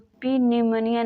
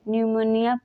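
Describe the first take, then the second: First: The word begins with a p sound. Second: The word begins with an n sound. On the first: The speaker calls it wrong. "नहीं" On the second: The speaker calls it right. "पढ़ते हैं"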